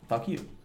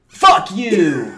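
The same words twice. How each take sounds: First: The phrase is said lightly, without any emphasis. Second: The phrase is said with strong, forceful emphasis. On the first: The speaker is just saying it in passing. "I'm not like emphasizing like it when I say it" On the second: The speaker is angry and confrontational. "I'm not like"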